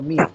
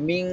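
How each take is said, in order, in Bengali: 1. এটি একটি ছোট, সাধারণ n ধ্বনি দিয়ে শেষ হয়। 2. এটি একটি দীর্ঘ, ধরে রাখা অনুনাসিক ধ্বনি দিয়ে শেষ হয়। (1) "দন্তন্য মিন" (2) "ধরে রাখতে হবে মিং"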